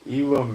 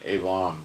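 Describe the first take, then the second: First: The name is said with a New York English accent. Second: The name is said with a Hebrew pronunciation. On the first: "Elam is like New York English accent" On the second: "Elam would be Hebrew"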